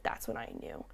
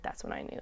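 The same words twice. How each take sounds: First: Hushed, choked-up whisper imitating a moved man; soft teary-eyed whisper. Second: Retold whisper, on the edge of tears; a hushed, emotional repeat; teary whisper. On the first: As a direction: whisper it as if holding back tears. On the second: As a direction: breathe it out softly, moved. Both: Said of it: "got a little teary-eyed".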